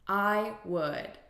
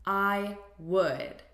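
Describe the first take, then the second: First: It is said as two full syllables. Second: It is said as two full syllables.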